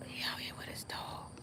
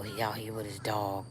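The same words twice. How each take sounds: First: A secretive whisper about the neighbor; hushed whisper to the viewers. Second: Said in the usual way. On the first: Real, not acted. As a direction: whisper it so he can't hear. Repeats it whispering about the dog.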